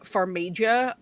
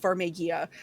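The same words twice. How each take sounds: First: The name is said like an Italian dish. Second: The name is said in plain English style. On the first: It sounds like a dish at an Italian restaurant. "they should have kept the spelling the same but pronounced it like" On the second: This is the name's actual pronunciation. "but no, it's"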